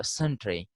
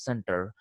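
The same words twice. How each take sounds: First: "century" said SEN-tree, as centre is spelt; misreading pronunciation. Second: "center" said SEN-ter, ending in -er; correct pronunciation. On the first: Teacher showing how unaware readers misread centre, pronounced SEN-tree. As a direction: say "century" in two syllables ending -tree. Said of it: "they may pronounce it as". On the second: Teacher giving students the correct form, pronounced SEN-ter. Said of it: "the correct pronunciation is center". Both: Shown as a demonstration.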